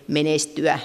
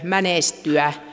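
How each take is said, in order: First: The first vowel is a mid e sound. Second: The first vowel is an open ä sound. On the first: It is the standard language form. "yleiskieliseen eehen" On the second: It is a regional dialect form. "äälinen variantti"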